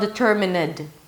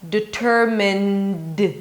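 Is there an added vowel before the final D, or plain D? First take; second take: added vowel; plain D. First: An extra vowel is added before the final D. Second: The final D follows the N with no vowel. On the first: The speaker calls it wrong. "It's not" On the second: The speaker calls it right. "There is no vowel there"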